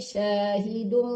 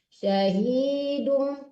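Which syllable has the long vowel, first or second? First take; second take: first; second. First: The vowel of the first syllable is long. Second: The vowel of the second syllable is long. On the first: The speaker calls it wrong. "Jangan di syahidum. Nggak boleh di syah yang panjang" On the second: The speaker calls it right. "hi-nya yang dipanjangin"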